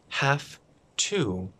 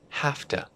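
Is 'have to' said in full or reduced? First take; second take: full; reduced. First: Have to is said fully and carefully. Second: Have to is reduced and said quickly.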